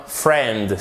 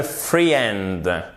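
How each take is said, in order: First: "friend" as "frend", one syllable; silent I. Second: "friend" as "free-end"; drawn-out mispronounced friend, "fri-END"; wrong, I sounded. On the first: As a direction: drop the i in friend. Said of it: "on ne prononce pas le I". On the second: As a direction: pronounce the i in friend, making two syllables. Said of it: "Ce n'est pas le friend". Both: Shown as a demonstration.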